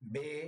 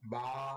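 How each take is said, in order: First: The letter name has an Urdu-style pronunciation. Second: The letter name has an Arabic-style pronunciation. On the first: The speaker calls it wrong. "Urdu উচ্চারণ থেকে বিরত থাকুন" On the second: The speaker calls it right. "বরং বা, ... এভাবে পড়তে হবে"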